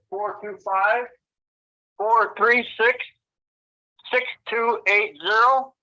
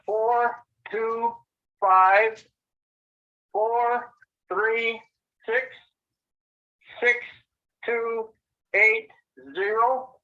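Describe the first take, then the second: First: The number is read at normal speed. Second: The number is read slowly.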